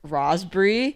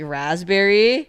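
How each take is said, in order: First: It is said with an Australian accent. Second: It is said without an Australian accent.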